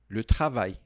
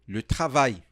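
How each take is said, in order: Both takes have the same delivery.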